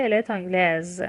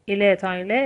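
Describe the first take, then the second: First: تانگلز ending in a voiced Z; French feminine "تانگلز" with z heard; S pronounced as Z. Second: تانگله left open on "eh"; French masculine "تانگله" without any s sound; silent final S. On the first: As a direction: finish تانگلز on a clear Z. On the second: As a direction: drop the last consonant of تانگله, rising tune. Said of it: "اس تلفظ نمیشه". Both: Shown as a demonstration.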